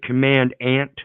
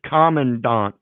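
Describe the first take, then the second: First: It is split into two words, command and ant. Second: It is said as one ordinary word. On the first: The word hides the word ant. "Isn't it command ant?" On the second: This is the usual pronunciation. "They pronounce it commandant"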